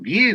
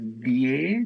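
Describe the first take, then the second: First: It sounds firm, like a statement. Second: It sounds timid, like a question. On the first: The speaker is certain of the answer. The speaker calls it right. "así es, según el método" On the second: The speaker is unsure of the answer. The speaker calls it wrong. "con miedo, como preguntas"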